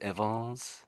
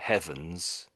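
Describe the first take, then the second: First: The word starts without an H sound. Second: The word starts with an H sound. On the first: The speaker calls it wrong. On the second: The speaker calls it right.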